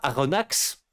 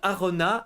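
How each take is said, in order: First: The final X is pronounced as ks. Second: The final X is not pronounced.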